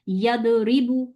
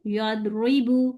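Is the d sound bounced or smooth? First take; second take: bounced; smooth. First: The d is released with a sharp bounce. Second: The d flows softly without a bounce. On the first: The speaker calls it wrong. "ऐसे नहीं बोलना" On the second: The speaker calls it right. "आराम से"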